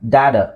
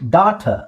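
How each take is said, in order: First: It is said in an American way. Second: It is said in an Australian way. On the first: "ಅದು Americans usually ಡ್ಯಾಡಾ ಅಂತ ಹೇಳ್ತಾರೆ" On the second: "ಡಾಟಾ ಅಂತ use ಮಾಡೋದು actually Australian"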